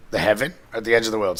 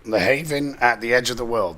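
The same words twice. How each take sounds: First: "heaven" said properly as HEV-en; fixing the word to "heaven"; corrected heaven. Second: "haven" read as HAY-ven, the harbour word; misread haven. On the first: Correcting himself to "heaven" on a note. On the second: Misreading "haven" while reading a note aloud. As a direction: says "haven" instead of "heaven". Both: Real, not acted.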